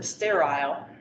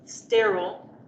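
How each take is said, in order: First: It is said with a British pronunciation. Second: It is said with an American pronunciation.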